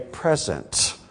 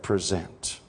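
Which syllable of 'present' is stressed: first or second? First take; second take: first; second. First: The stress is on the first syllable. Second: The stress is on the second syllable. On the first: It means a gift. "could I play upon that word for just a moment and say present" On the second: It means to offer something. "We usually say present"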